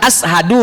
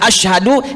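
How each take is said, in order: First: The consonant is a plain 's' sound. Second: The consonant is a 'sh' sound. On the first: "dibaca sin"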